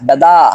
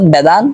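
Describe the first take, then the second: First: The final n is only a nasalized vowel. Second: The final n is pronounced clearly. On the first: The speaker calls it right. "এখন নাকে নিয়ে বলতে হবে বেদা" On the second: The speaker calls it wrong. "আগে যেমন আমরা স্পষ্ট ভাষা বলতাম বেদান"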